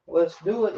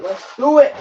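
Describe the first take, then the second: First: Said in the usual way. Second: Higher and louder, rising hype; hyped-up rising shout; excited. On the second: Shown as a demonstration. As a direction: pump it up on the repeat.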